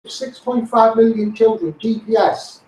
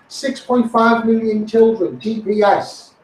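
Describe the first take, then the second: No difference in how they are said.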